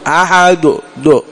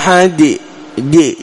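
First: The final d is followed by a u vowel. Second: The final d is followed by an i vowel. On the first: "تقربها إلى الضم" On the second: "تقربها إلى الكسرة"

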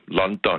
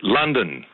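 First: It is said with two strong Danish å vowels. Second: It is said with English vowels. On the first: It is the usual way the name is said in Denmark. "Med to meget markerede A-lyde. Danske ålyde" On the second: It follows how the locals say the name. "Det siger man ikke i Danmark"

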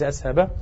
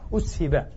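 First: The verb is voiced in the active form. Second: The verb is voiced in the passive form. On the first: The speaker calls it wrong. "وليس أسهبا" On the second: The speaker calls it right. "أسهبا وليس"

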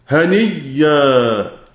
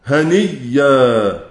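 The two takes are said the same way.

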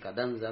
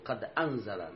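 First: The glottal stop drops; its vowel joins qad. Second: The glottal stop before anzala is fully pronounced. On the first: This form is acceptable to fit the verse. "لكن قد أنزل لا بس" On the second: This is the standard form. "فالأصل قد أنزل"

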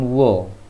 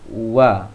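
First: The vowel is rounded, like an o. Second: The vowel is open, like an a. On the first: The speaker calls it wrong. "jangan wo" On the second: The speaker calls it right. "tapi wa"

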